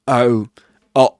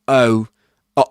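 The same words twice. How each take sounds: No difference in how they are said.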